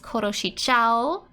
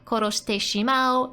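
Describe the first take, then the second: First: The phrase is said in a contracted form. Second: The phrase is said in its full form. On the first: "they're just contracting that to say it faster" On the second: "Instead of koroshite shimao"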